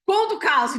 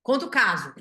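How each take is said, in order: First: Playful exclaim. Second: Said in the usual way. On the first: Shown as a demonstration. Speaker echoing the viewers' request to tell the story, louder and higher.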